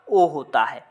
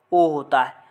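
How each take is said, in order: Both takes have the same delivery.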